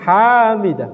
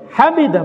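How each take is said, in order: First: The first vowel is drawn out long. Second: The first vowel is short. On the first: The speaker calls it wrong. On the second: The speaker calls it right. "haknya jangan panjang"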